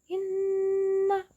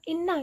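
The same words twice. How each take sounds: First: The nn is held two beats with nasal hum. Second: The nn is short without a held hum. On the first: The speaker calls it right. "tapi inna. Ditahan dua harokat" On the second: The speaker calls it wrong. "Jadi enggak inna gitu"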